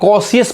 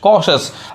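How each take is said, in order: First: It has an extra 'ee' syllable after 'sh'. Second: It has no extra syllable after 'sh'. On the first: The speaker calls it wrong. "बहुत लोग इसे कॉशियस पढ़ते हैं जो कि क्या गलत उच्चारण है" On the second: The speaker calls it right. "कॉशस कॉशस"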